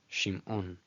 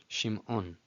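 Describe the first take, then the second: No difference in how they are said.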